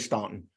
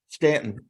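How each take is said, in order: First: The first vowel sounds like 'law'. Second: The first vowel sounds like 'man'. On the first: The speaker calls it wrong. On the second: The speaker calls it right.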